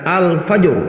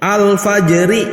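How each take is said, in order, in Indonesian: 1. Kata itu berakhir pada konsonan mati. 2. Kata itu berakhir dengan vokal akhir yang penuh.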